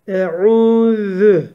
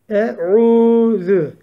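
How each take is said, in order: The two takes are said the same way.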